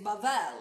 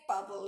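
First: It is pronounced the Hebrew way. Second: It is pronounced the English way. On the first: "you say Babel" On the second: "you don't say Babel in Hebrew"

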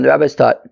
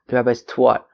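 First: It is said in a plain accent. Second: It is said with a Brooklyn 'w' sound.

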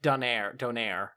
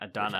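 First: The word ends with a long 'air' sound. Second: The word ends with a short 'ner' sound. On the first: This is how it is supposed to be said. The speaker calls it right. "It's supposed to be pronounced donair" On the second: This is how a British speaker says it. The speaker calls it wrong. "He called it a donor"

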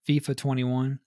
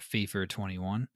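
First: It is said the American way. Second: It is said the British way.

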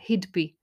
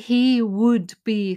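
First: The first two words are merged into a contraction. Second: The first two words are said separately in full. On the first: "very fast speech" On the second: "He doesn't say"

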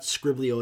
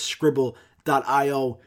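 First: The name is run together as three syllables. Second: The name is said as scribble, then eye oh. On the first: This is the speaker's own way of saying it. "I call it Scriblio" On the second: This is how other people say it should be said. "people tell me like, no, you're stupid. It's not Scriblio, it's Scribble.io"

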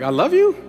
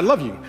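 First: It sounds unsure, rising like a question. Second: It sounds confident, falling like a statement.

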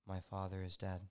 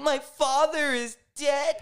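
First: It sounds strong and confident. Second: It sounds showily upset and emotional.

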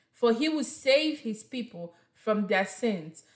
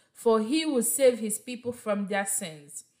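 The two takes are said the same way.

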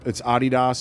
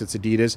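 First: It is said the European way. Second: It is said the American way.

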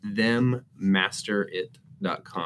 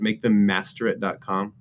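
First: It is said slowly and deliberately. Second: It is said at normal conversational speed.

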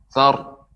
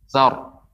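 Both takes have the same delivery.

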